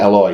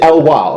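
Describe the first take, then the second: First: The name ends with an 'oy' sound. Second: The name ends with a 'wa' sound. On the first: The speaker calls it wrong. "You don't say oi" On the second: The speaker calls it right. "You say we"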